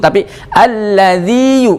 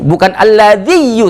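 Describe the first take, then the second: First: The final vowel is held long and firm. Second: The final vowel is short and merged. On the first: The speaker calls it right. "Jadi dikuatkan panjangnya, maksudnya dimadkan, jangan sampai dibaca idgham" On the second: The speaker calls it wrong.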